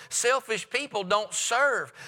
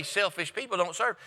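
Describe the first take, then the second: First: Slow and deliberate, leaning on serve; each word of Selfish people don't serve laid down slowly; firm slow declaration. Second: Softer, dropping the voice on Selfish people don't serve; soft repeated statement. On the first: Preacher to congregation, slow firm statement of a rule. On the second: Preacher repeating his point to the church, quietly. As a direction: say it again quietly so it sinks in. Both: Shown as a demonstration. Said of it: "I want you to mark it down".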